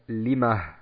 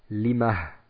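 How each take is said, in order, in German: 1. Das Wort endet auf einen Vokal und ein leises h. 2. Das Wort endet auf einen Vokal und ein leises h.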